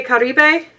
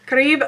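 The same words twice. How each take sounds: First: "Caribe" in three syllables, ending in -bay; "Caribe" with the final e sounded as "ay"; unsure Spanish pronunciation. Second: "Caribe" cut to two syllables, ka-REEB; "Caribe" ending on a b sound, unsure; second-guessed pronunciation. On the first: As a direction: say "Caribe" as kah-ree-BAY, tentatively. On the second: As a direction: say "Caribe" with a silent final e, questioning. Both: Real, not acted. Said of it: "I don't speak Spanish".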